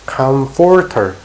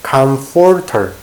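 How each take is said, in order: First: The middle consonant is an f sound. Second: The middle consonant is an f sound.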